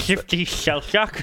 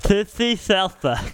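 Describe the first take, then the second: First: "shifty shell shock" said slowly, each sh slurred wetly out the side of the tongue; slow, slushy sideways hiss on "shifty shell shock"; lateral lisp. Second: "Shifty shell shock" with every sh turned into th, tongue held out; tongue-held lisp. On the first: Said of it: "Sorry, that was a lateral lisp". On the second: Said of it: "literally hold your tongue". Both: Shown as a demonstration.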